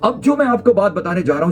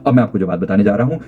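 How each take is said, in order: First: It is said lively, with varied pitch and pace. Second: It is said flatly, without pitch variation. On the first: "अपने gestures और voice modulation के साथ बोलता हूं" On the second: "मैंने ये बात बोली बिल्कुल सटीक सीधी भाषा के अंदर"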